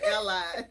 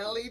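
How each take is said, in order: First: The second syllable sounds like 'lie'. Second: The second syllable sounds like 'lee'. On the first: "That's how we pronounce it" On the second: "But you did L E Drive"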